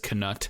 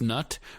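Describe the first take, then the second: First: The word starts with a sounded K before N. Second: The word starts with an N sound, no K. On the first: "he vocalizes it just to make it clear that there's a K" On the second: "it should be pronounced nut"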